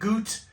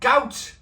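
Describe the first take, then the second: First: It sounds unlike the English ailment word gout. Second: It sounds like the English ailment word gout.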